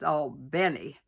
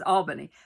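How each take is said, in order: First: It is said the Southern way. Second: It is said the New York way.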